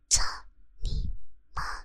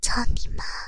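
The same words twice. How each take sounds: First: It is said softly and quietly. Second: It is said loudly and forcefully.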